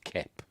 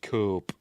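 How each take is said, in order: First: The vowel is a short 'eh' sound. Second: The vowel is a long 'oh' sound. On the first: The speaker calls it right. "but it's pronounced Kep" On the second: The speaker calls it wrong. "I was pronouncing it Cope"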